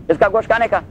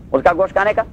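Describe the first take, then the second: No difference in how they are said.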